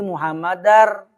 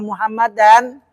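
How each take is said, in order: First: The n merges fully into a doubled r sound. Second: The final n is pronounced clearly before the r. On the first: The speaker calls it right. "Jadi muhammadar" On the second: The speaker calls it wrong. "berarti salah juga bacaannya"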